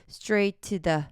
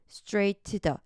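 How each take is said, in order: The two takes are said the same way.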